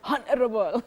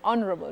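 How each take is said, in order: First: The word starts with an H sound. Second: The word starts without an H sound. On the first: The speaker calls it wrong. "not honorable" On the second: The speaker calls it right. "The H is silent"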